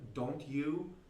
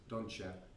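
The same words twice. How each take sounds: First: The T sound is clearly pronounced. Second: The T sound is dropped and linked.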